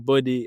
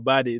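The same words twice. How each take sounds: First: It is said in a non-American accent. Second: It is said in an American accent.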